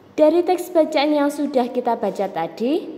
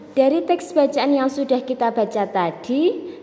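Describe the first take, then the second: The two takes are said the same way.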